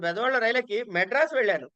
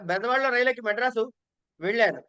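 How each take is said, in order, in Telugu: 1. Madras అనే నగరం పేరుపై ఒత్తిడి ఉంది. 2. చివరి క్రియ vellanu పై ఒత్తిడి ఉంది. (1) "అక్కడ ఇంపార్టెన్స్" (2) "ఆఖరికి వెళ్లారు"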